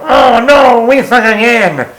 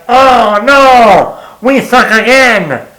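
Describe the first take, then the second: First: Imagined Happy losing it. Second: Imagined Rob Schneider heckle. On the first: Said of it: "and go". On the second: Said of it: "be like". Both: Pretend.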